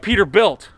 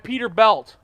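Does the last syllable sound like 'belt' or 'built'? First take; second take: built; belt. First: The last syllable sounds like 'built'. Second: The last syllable sounds like 'belt'. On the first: The speaker calls it right. "Built, not belt" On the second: The speaker calls it wrong. "not belt"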